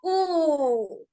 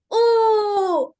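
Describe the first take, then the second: First: Long, falling, aching "oooh"; pained "oo". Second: Loud, high, drawn-out happy "oooh". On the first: Teacher demonstrating an emotive vowel, very pained drawn-out U. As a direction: stretch the U into a pained moan. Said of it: "como muy dolorosa". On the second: Teacher demonstrating an emotive vowel, happy held U. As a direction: let out a long, bright-spirited, high U. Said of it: "vamos a hacer una U feliz". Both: Shown as a demonstration.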